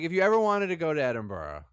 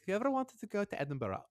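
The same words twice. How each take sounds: First: It is said in the speaker's normal accent. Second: It is said in a put-on Scottish accent.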